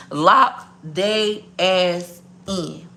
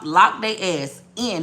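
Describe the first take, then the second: First: LOCK THEY ASS IN, very slow with pauses; emphatic word-by-word. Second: Said in the usual way. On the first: Real, not acted. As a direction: hammer home each word of "Lock they ass in" separately. Repeats advice word by word.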